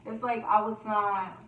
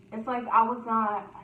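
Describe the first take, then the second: No difference in how they are said.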